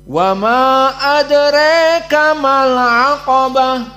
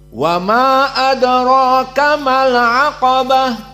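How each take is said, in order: First: The vowel in adraka is tilted toward e. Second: The vowel in adraka is an open a. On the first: "qasr dari mad dengan imalah al-kubra pada adraka" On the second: "qasr dari majaiz, maka dibaca dua harokat saja"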